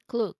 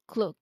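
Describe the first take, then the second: Both takes have the same delivery.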